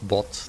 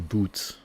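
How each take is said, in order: First: The vowel is a short 'o' sound. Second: The vowel is a long 'oo' sound. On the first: "It's not bot" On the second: "you don't say boot, because that's like shoe"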